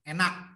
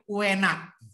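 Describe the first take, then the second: First: The word starts directly on e, no u. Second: The word starts with a short u sound. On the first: The speaker is from western Central Java. "Kalau orang Jawa Tengah, bagian barat" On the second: The speaker is from eastern Central Java. "Jawa Tengah bagian timur, ada u-nya"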